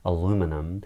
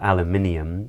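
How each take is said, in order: First: It is said with an American pronunciation. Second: It is said with a British pronunciation. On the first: "in America they would say" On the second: "in Britain we would say"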